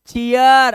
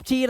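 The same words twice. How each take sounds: First: चीयर loud, as chee-yaar; emphatic two-part चीयर; ee-ar reading. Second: चीर as one syllable with ee; wrong reading. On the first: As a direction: stretch चीयर into two syllables ending in aar. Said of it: "अब तू हो गया चीयर". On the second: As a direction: say चीर with no ya glide. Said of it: "अब चीर नहीं है". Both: Shown as a demonstration.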